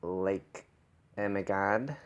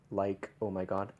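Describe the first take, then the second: First: "oh my God" with fronted, bright vowels; "God" opened toward a bright "gad"; brighter vowels. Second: Said in the usual way. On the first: Shown as a demonstration. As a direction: shift the vowels of "Like, oh my God" forward. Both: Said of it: "shifting the vowels brighter".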